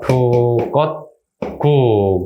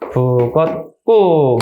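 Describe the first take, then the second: First: The last syllable starts with a plain k sound. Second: The last syllable starts with a tensed kk sound. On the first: "당연히 음절 끝소리 규칙 일어난다라고 생각해야 될 거예요" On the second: "된소리 되기가 나타난 부분이에요"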